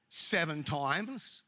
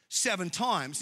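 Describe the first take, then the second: First: "Seven times" slow, rising at the end; questioning tune. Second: "Seven times" falling firmly at the end; statement tune. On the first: Peter asking Jesus how often to forgive, questioning. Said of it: "This is not a question". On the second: Peter's loaded question to Jesus, said as a statement. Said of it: "this is a statement". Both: Acted.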